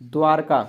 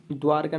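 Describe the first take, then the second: First: Dwarka said louder with the ध्व-like dva cluster; emphatic. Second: Dwarka said as daarka without the v; Dwarka said darka, dropping the व; wrong form. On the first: Teacher announcing the next word Dwarka. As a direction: call out Dwarka clearly with dva. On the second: Teacher showing the wrong reading of Dwarka. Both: Shown as a demonstration. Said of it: "Dwarka नहीं".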